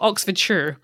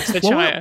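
First: The ending is a short 'sure' sound, English-style. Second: The ending is a full 'shire' sound, American-style.

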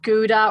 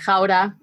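First: The name is said with an English pronunciation. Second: The name is said with a Dutch pronunciation.

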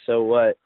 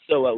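First: It is said as a questioning rise. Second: It is said as a forceful exclamation.

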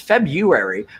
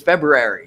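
First: The first R sound is dropped. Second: The first R sound is pronounced. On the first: "I never, it's February" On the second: "I'm doing February now, which is crazy"

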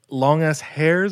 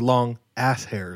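First: 'Ass' is grouped with the word 'long'. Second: 'Ass' is grouped with the word 'hairs'. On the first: The hairs are very long. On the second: The hairs are long body hairs from the buttocks.

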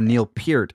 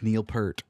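First: The surname is said in an affected, showy way. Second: The surname is said in a plain way. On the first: The speaker calls it wrong. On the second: The speaker calls it right.

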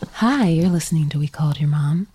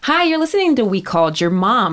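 First: It is said in a sultry, seductive voice. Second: It is said in a plain, ordinary voice.

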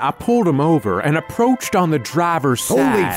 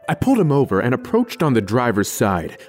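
First: It is spoken in a put-on character voice. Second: It is spoken in a natural everyday voice. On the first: The speaker calls it wrong. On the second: The speaker calls it right.

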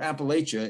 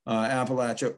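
First: It is said with the New York pronunciation. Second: It is said without the New York pronunciation.

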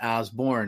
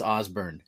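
First: The name is said the national media way. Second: The name is said the local way. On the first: This is how outsiders say it. The speaker calls it wrong. "not Osborne, as the national media will say" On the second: This is how people in the home state say it. The speaker calls it right. "everyone's saying it's Osborne"

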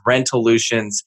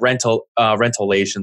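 First: The ending sounds like 'lutions'. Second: The ending sounds like 'lations'. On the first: The speaker calls it right. "formerly known as Rentolutions" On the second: The speaker calls it wrong. "I called it Rentolations, I think is how I pronounced it"

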